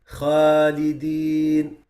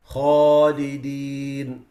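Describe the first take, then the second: First: Slow Khalidin with a thin light alif; wrong light Khalidin. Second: Slow Khalidin with a full heavy alif; correct heavy Khalidin. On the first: Teacher showing students a wrong light Khalidin. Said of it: "making it light where it should be heavy". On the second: Teacher showing students the right Khalidin. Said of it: "where it should be". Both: Shown as a demonstration.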